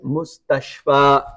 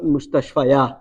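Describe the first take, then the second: First: The word ends without an extra ya sound. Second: The word ends with an extra ya sound. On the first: The speaker calls it right. "so you don't pronounce this ya. It's a mustashfa" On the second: The speaker calls it wrong. "not mustashfa ya"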